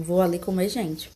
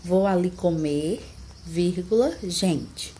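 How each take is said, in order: First: "comer gente" joined, falling at the end; no comma pause. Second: Slow "Vou ali comer", pause, "vírgula", pause, falling "gente"; comma pause. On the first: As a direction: say "Vou ali comer gente" straight through. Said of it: "ele fica dessa forma". ("Vou ali comer gente" direto, sem pausa) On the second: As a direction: hold "comer", then set "gente" apart. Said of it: "a frase correta deveria ficar assim". ("Vou ali comer" devagar, pausa, depois "gente" separado) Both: Shown as a demonstration.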